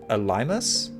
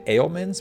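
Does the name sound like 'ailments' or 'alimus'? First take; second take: alimus; ailments. First: The name sounds like 'ah-lih-mus'. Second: The name sounds like the word 'ailments'. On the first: The speaker calls it right. "but it's" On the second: The speaker calls it wrong. "I think I've been saying it wrong"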